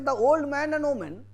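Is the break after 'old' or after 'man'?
after old. The phrase breaks after 'old'.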